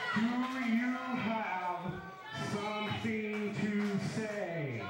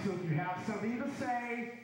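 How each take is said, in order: First: It is said slowly. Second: It is said fast.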